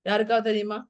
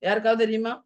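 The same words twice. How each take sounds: No difference in how they are said.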